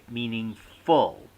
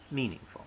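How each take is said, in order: First: The final syllable carries a clear stress. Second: The final syllable is slack and unstressed.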